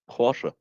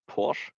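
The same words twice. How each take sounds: First: It ends with a short final vowel sound. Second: It ends without any final vowel sound. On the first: The speaker calls it right. "it's an e in it" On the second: The speaker calls it wrong.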